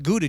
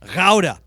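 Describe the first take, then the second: First: Gouda is said with an English pronunciation. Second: Gouda is said with a Dutch pronunciation. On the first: "We call it Gouda cheese" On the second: "the proper name Gouda. ... That's how they pronounce it"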